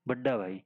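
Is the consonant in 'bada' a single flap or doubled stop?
doubled stop. The middle consonant is a doubled stop. "तो ये पढ़ेंगे बड्डा भाई"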